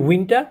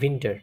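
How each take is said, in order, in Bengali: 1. এটি বাংলা ভাষীরা যেভাবে বলেন, সেভাবে বলা হয়েছে। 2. এটি জার্মান ভাষীরা যেভাবে বলেন, সেভাবে বলা হয়েছে। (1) "আমরা বলি উইন্টার" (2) "তারা বলে উইন্টার"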